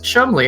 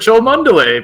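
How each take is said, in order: First: The name is said short, as two syllables. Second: The name is said long, following its spelling. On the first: The speaker calls it right. "It's pronounced Chumley" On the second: The speaker calls it wrong. "That's not how you pronounce it"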